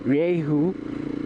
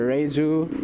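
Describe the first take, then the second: First: The middle consonant is an H sound. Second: The middle consonant is an English J sound. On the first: The speaker calls it right. "the letter J is pronounced with, with an H" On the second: The speaker calls it wrong. "we directly pronounce it"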